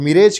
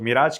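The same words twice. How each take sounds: First: मिरेज with an "ay" vowel, mi-RAYJ; alternative pronunciation. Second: मिराज with a long "aa", mi-RAAJ; preferred pronunciation. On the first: Teacher showing students how some say मिरेज, with "ay". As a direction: say मिरेज to rhyme with "age". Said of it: "इसे कुछ लोग मिरेज कहते हैं". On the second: Teacher showing students the chosen मिराज, with long "aa". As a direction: say मिराज with an open "aa" second vowel. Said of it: "कुछ लोग मिराज कहते हैं". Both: Shown as a demonstration.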